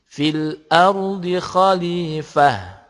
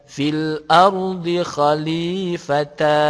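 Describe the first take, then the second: First: The last word ends with an h sound. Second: The last word ends with a ta syllable. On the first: The speaker calls it right. "tetapi menjadi fil ardi khalifah, jadinya ha" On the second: The speaker calls it wrong. "jika berhenti bukan dibaca fil ardi khalifata"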